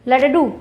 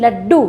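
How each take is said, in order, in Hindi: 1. d ध्वनि स्वर से विभाजित है। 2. d ध्वनि दोहरी उच्चारित होती है। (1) "क्या लडडू शब्द सही है? नहीं" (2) "क्या हम बोलते हैं लड्डू"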